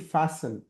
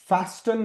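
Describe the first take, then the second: First: The t sound is left silent. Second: The t sound is clearly pronounced. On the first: The speaker calls it right. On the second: The speaker calls it wrong.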